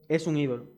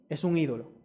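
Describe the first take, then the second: No difference in how they are said.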